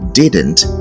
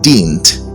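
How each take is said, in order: First: The word is said in two syllables. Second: The word is squeezed into one syllable. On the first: The speaker calls it right. "It should come in two syllables" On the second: The speaker calls it wrong. "This word is not pronounced didn't"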